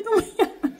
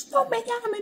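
First: Very high laughing squeal, higher; hammed-up frazzled aunt giggling the plea; panicked aunt. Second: Very high, frantic squeal, higher; hammed-up frazzled aunt begging not to be called; panicked aunt. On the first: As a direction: repeat it in a mock panic through a laugh.

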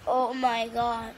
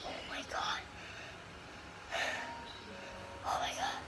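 First: Said in the usual way. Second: Breathless awestruck whisper; whispered awe. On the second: Real, not acted. Gamer stunned into silence, whispered awe. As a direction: breathe it out in hushed disbelief.

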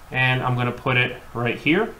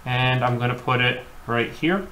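No difference in how they are said.

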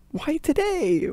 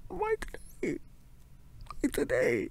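First: Higher and louder, exasperated cry; frustrated outburst. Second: Defeated mumble. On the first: To her partner, blaming herself, frustrated cry. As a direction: throw the question out in frustration. Frustrated self-reproach, repeated question. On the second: To her partner, repeating herself, defeated mumble. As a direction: let the question sink in despair. Same question repeated, sinking. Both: Acted.

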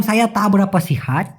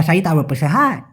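First: "তা বেরাপা" as two full words; clear pronunciation. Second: "সাই তা বেরাপা" squashed together; slang pronunciation. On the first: Teacher recalling the reply, clearly articulated. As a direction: articulate "সিহাত" fully. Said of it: "স্পষ্ট হবে". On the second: Teacher recalling the reply, in slurred slang. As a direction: slur through to "সিহাত". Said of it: "আরও বলে". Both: Shown as a demonstration.

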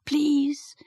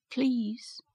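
First: A higher, fuller please, begging; pleading please. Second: A soft, hesitant please, much quieter; timid please. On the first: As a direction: she tries again, more urgently. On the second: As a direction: she barely dares to ask. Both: A narrator's reading. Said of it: "began Mary".

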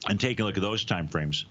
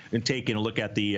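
First: Said in the usual way. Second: Talking around an ice cube; words round an ice cube; mouth full. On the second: Real, not acted. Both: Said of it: "Sorry, I got an ice cube in my mouth".

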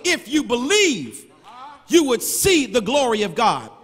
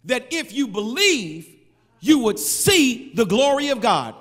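First: "If you believe" slowed and weighted on "believe"; slow emphatic replay. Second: Said in the usual way. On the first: Shown as a demonstration. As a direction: replay it slowly so each word lands. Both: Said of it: "Pause, rewind, press play".

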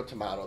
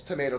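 First: Tomato said tuh-MAH-toe, broad A as in father; tomahto. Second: Tomato said tuh-MAY-toe, long A as in day; tomayto. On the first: Vlogger shrugging off hotel differences, tomato as tuh-MAH-toe. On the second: Vlogger comparing Palazzo and Venetian, tomato as tuh-MAY-toe. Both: Shown as a demonstration.

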